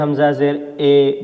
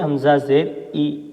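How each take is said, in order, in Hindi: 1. अंतिम स्वर 'ay' जैसी मध्य ध्वनि है। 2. अंतिम स्वर 'ee' जैसी उच्च ध्वनि है। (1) "इस तरह नहीं पढ़ेंगे" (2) "बल्कि पढ़ेंगे"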